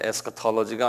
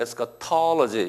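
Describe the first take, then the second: First: All syllables get even stress, with no accent. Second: The stress falls on the syllable 'tol'. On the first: The speaker calls it wrong. "에스카톨로지가 아니고" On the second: The speaker calls it right. "영어는 항상 액센트가 있어요"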